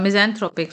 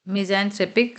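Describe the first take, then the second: First: Misanthropic with an open o, "thropik"; corrected pronunciation. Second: Misanthropic with "threpik" at the end; mispronounced. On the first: Shown as a demonstration. Teacher corrects her slip for learners, corrected pronunciation. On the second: Real, not acted. Teacher slips while reading the list, mispronounced. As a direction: say misanthropic with an e vowel, "mizan-threpik". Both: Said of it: "sorry, इसे thropic पढ़ेंगे".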